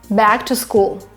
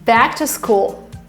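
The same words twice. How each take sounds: First: The B is released without a puff of air. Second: The B is released with a puff of air. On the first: The speaker calls it right. "don't push it" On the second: The speaker calls it wrong. "I think I was wrong with my B"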